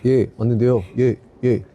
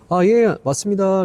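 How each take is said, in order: First: It is said at a low, flat pitch. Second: It is said at a high, bright pitch.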